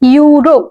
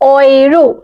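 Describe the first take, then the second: First: The word begins with a 'you' sound. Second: The word begins with an 'oy' sound. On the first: This is the English pronunciation. "এইটা হচ্ছে English pronunciation" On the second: This is the German pronunciation. "উচ্চারণটা আউসপ্রাখাটা পাল্টে যাবে। সেইটা হবে অয়রো"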